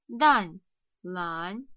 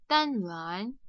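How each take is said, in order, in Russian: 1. Два слога произносятся с обычной скоростью. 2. Два слога произносятся быстро, слитно. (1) "Еще раз" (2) "И быстро"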